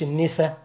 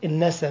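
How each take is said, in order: First: The first vowel is a close 'i'. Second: The first vowel is an open 'a'. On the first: It means women. The speaker calls it wrong. "مش النسا. النسا دي عندك انت" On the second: It names the sciatic nerve ailment. The speaker calls it right. "اسمه عرق النسا"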